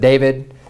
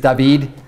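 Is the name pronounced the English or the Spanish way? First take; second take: English; Spanish. First: The name is pronounced the English way. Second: The name is pronounced the Spanish way. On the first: "instead of David" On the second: "Just like in Spanish, my name is David"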